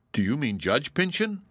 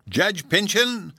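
First: "Judge Pyncheon" asked with a mild rise of surprise; surprised question. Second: "Judge Pyncheon" flung back much higher, louder and slow; angry echo. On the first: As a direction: ask it lightly startled, stress on "Pyncheon". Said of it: "asked Phoebe in surprise". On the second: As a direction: spit the name back in outrage, falling on "Pyncheon". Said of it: "answered her cousin angrily". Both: A narrator's reading.

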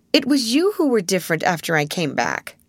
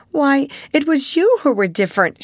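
First: Said in the usual way. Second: Higher, louder protest; cried out. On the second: A narrator's reading. Ermengarde protesting to Sarah, crying out. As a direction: fling the blame back at her. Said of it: "she cried".

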